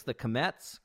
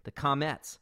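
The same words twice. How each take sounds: First: "Comets" said kuh-METS, a weak "kuh" and stress on the second syllable; slipped pronunciation. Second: "Comets" said KAH-mets, open "ah" and stress on the first syllable; corrected pronunciation. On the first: Podcast host reading band names, tripping on the name. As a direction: let "Comets" slide into kuh-METS with the first syllable swallowed. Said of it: "God, why do I always say it like that?". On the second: Host fixing his own slip on the band name, careful correction. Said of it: "why do I always say it like that?". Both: Real, not acted.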